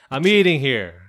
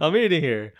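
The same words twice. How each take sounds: First: Loud New York guy, hammed up; New York accent. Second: Louder New York guy voice; New York accent. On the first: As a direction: bark it like a New York cabbie. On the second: Pretend. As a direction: give it a New York attitude, loud. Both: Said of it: "I'm trying to do a New York voice".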